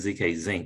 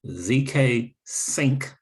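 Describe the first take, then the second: First: The last word begins with a z sound. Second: The last word begins with an s sound. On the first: The speaker calls it wrong. "I keep saying Z K Zinc" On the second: The speaker calls it right. "like in short for synchronization"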